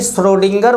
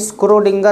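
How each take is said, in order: First: The name begins with a 'shr' sound. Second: The name begins with an 'skr' sound. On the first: This is how the name is usually said. The speaker calls it right. "श्रोडिंगर बोला जाता है" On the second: This is how the name may be read from spelling. The speaker calls it wrong. "स्क्रोडिंगर आप पढ़ सकते हैं"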